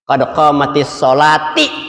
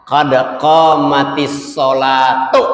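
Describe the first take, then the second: First: The last word ends in an 'i' vowel. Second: The last word ends in a 'u' vowel. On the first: The speaker calls it wrong. "Kita sering mendengar begini" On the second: The speaker calls it right. "Yang betul adalah"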